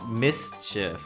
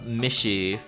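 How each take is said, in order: First: The middle consonant is not said as sh. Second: The middle consonant is said as sh. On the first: The speaker calls it right. "it's mischief" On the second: The speaker calls it wrong. "I always thought it was pronounced uh"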